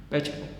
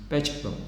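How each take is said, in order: The two takes are said the same way.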